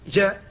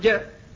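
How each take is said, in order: First: The j is spread out, close to sh. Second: The j is overly tight, close to d. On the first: "جاء بالتفشي كانت شينا" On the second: "بشدة المبالغة فيها كانت دالا"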